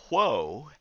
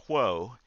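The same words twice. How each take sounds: First: Mild mock yell with a swooping, drawn-out tune; retold yell. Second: Said in the usual way. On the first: Boys riding the minister's horse, mock yell. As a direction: imitate a rider calling out, only half raised. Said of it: "would yell". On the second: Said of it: "after they yelled".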